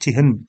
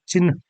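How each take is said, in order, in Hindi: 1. n की ध्वनि h के बाद बोली जाती है। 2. n की ध्वनि h से पहले बोली जाती है। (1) "ना कि चिन्ह" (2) "बोला भी जाता है चिन्ह"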